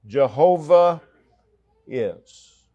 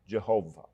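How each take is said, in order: First: Jehovah called out higher and louder; proclaiming the name. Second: Said in the usual way. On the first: Shown as a demonstration. Preacher proclaiming God's name, ringing stress. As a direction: ring out Jehovah. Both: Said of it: "the personal name of God".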